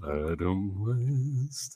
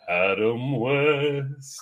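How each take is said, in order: First: It is said more softly. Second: It is said at normal loudness.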